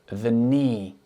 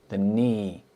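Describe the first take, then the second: No difference in how they are said.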